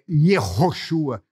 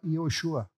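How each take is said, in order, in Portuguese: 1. O som do h é pronunciado com força. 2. O som do h é só levemente aspirado. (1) "Você não fala, por exemplo, é" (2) "ele é aspirado levemente"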